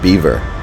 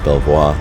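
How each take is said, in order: First: The name is said like the word beaver. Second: The name is said the French way. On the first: The speaker calls it wrong. "they pronounce it beaver" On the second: The speaker calls it right. "It's clearly pronounced Belvoir"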